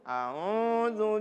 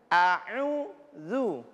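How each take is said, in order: First: The u sound comes out through the nose. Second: The u sound comes out through the mouth. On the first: The speaker calls it wrong. "u-nya keluar lewat hidung" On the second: The speaker calls it right. "Semuanya lewat mulut. Jangan lewat hidung"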